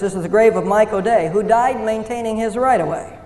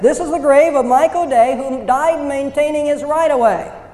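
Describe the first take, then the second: First: It is said fast. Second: It is said more slowly.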